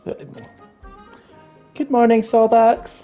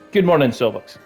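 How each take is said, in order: First: It is said in a put-on character voice. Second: It is said in a plain natural voice. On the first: "I don't like that voice" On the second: "I'm just gonna read it"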